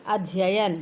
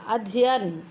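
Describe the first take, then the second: First: अध्ययन as "adh-ya-yan"; full correct form. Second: अध्ययन shortened to "adhiyan"; dropped syllable. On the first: Teacher restoring lost letters, अध्ययन in full. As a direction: say अध्ययन with both "ya" sounds. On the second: Teacher showing lost letters, अध्ययन shortened. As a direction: say अध्ययन with one "ya" missing. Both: Shown as a demonstration. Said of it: "अक्षर लोप संबंधी शुद्धियाँ".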